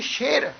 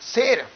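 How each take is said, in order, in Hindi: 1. शब्द की शुरुआत श ध्वनि से होती है। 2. शब्द की शुरुआत सादी स ध्वनि से होती है। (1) "ਉਹਦਾ ਉਚਾਰਨ ਹੋਏਗਾ ਜੀ" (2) "ਲਿਖਤ ਵਿੱਚ ਸਾਨੂੰ ਪੜ੍ਹਨ ਨੂੰ ਮਿਲੇਗਾ"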